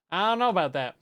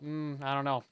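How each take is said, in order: First: Higher, louder I don't know; emphatic skeptical repeat; louder doubtful take. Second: Said in the usual way. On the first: Shown as a demonstration. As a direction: push it up with doubt. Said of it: "louder take". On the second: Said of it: "repeat louder".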